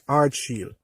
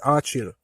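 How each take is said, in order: First: The name is said as 'Ardsheel'. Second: The name is said as 'Archil'. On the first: The speaker calls it right. "but it's Ardsheel" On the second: The speaker calls it wrong. "persons pronounce it as Archil"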